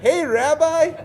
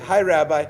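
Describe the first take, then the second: First: The greeting sounds happy and cheerful. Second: The greeting sounds unhappy and reluctant.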